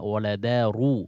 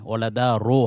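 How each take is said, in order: First: The last vowel is a u sound. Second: The last vowel is an o sound. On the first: The speaker calls it right. "আরবিতে ওকার নেই" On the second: The speaker calls it wrong. "ওয়ালাদা রো হয় না"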